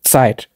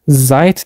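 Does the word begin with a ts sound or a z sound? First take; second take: ts; z. First: The word begins with a sharp ts sound. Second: The word begins with a plain buzzing z sound. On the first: The speaker calls it right. "T S sesini çıkarıyorum" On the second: The speaker calls it wrong. "ben her Zeit dediğimde hoca bana hayır"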